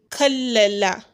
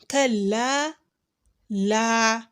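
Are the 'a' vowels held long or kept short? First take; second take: short; long. First: The vowels are short and run together. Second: The vowels are held long and kept apart. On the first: The speaker calls it wrong. "assuming there is no mud at all, it is just kallala" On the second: The speaker calls it right. "they are to be elongated for two harakas"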